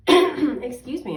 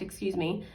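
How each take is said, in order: First: Louder and slower, right after clearing the throat; a firmer second excuse me. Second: Said in the usual way. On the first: Real, not acted.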